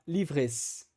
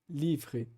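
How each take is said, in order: First: The final S sound is pronounced. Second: The final S sound is silent. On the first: The speaker calls it wrong. "Eu não vou falar livres" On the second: The speaker calls it right. "Eu vou falar les livres"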